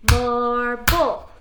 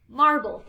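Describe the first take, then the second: First: "Marble" louder as "mar" and "ble"; split into syllables. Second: Said in the usual way. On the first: Shown as a demonstration. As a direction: break "Marble" in two. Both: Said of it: "Break it apart".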